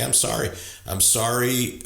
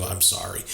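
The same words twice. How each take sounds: First: A plain, earnest "I'm sorry." that fully owns it; mean every word of "I'm sorry."; sincere apology. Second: A quiet, grudging "I'm sorry," that owns nothing; dismissive sorry. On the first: Coach shows how to really own it, sincere. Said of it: "Just say". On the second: Coach shows the wrong kind of apology, grudging. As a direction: toss off "I'm sorry," as a hollow non-apology. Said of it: "Not that kind of". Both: Shown as a demonstration.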